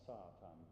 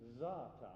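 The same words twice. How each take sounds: First: The word begins with a hissing s sound. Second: The word begins with a buzzing z sound. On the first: The speaker calls it wrong. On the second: The speaker calls it right. "with a Z sound"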